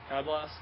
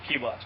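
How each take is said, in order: First: The first word rhymes with 'sky'. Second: The first word rhymes with 'see'. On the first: The speaker calls it wrong. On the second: The speaker calls it right.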